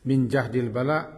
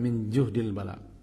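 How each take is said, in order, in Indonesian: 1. Vokal pertama pada jahdi adalah 'a'. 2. Vokal pertama pada juhdi adalah 'u'. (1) "Bedanya kalau baris atas, syiddah wa masyakkah" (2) "Kalau juhdil bala, ah, hampir-hampir tidak mampu memikulnya"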